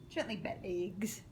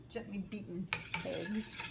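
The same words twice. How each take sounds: First: "gently bet eggs" with beaten cut short to "bet"; clipped "bet" for beaten. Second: Said in the usual way. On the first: Shown as a demonstration. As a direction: playfully say "bet" instead of "beaten". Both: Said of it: "Yes, I like that".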